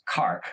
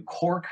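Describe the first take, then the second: First: Cark with an open ah vowel for Cork; Irish pronunciation. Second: Said in the usual way. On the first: Retold or imitated. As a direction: say Cark, dropping the or sound of Cork. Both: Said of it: "which they pronounce Cark".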